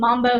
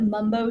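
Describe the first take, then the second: First: The first vowel is an open 'ah' sound. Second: The first vowel is a short 'uh' sound.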